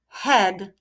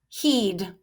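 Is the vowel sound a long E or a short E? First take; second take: short E; long E. First: The vowel is a short E sound. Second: The vowel is a long E sound. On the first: The speaker calls it right. "I will try short E" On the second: The speaker calls it wrong. "so I'll try the long E sound"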